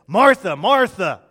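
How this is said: The name is said in an angry tone. The speaker is scolding. The speaker calls it wrong. "I don't think Jesus said it in an angry way"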